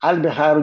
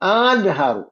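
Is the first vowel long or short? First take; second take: short; long. First: The first vowel is short. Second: The first vowel is drawn out long. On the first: It is a plain statement. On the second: It is a question.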